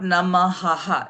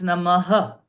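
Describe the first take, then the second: First: Namaha with a full, open "ha" at the end; mispronounced Namaha. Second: Namaha ending on a short, emphasized breath of H; enunciated final H. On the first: Teacher showing what not to say, Namaha with a full final vowel. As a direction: say Namaha wrongly, sounding the last A fully. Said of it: "it's not Namaha". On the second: Teacher correcting a chant word, Namaha with emphasis on the final H. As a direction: stress the H in Namaha, barely voicing the last A. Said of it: "the H". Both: Shown as a demonstration.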